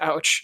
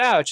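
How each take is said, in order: First: It is delivered hesitantly, without confidence. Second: It is delivered boldly, with confidence. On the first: The joke falls flat. The speaker calls it wrong. "they say it like that, it's not as funny" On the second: The joke lands as funny. The speaker calls it right. "that's funny and stupid"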